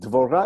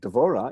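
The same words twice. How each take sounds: First: The stress is on the last syllable. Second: The stress is on the first syllable. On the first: It is the word for a bee. "Dvorah is a bee" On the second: It is a person's name. "Dvorah is Deborah"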